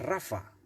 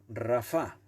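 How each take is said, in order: First: The stress is on the first syllable. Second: The stress is on the last syllable. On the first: It sounds like the personal name. The speaker calls it wrong. "si no diría Rafa" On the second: It is the word meaning negligent. The speaker calls it right. "con acento en la última A"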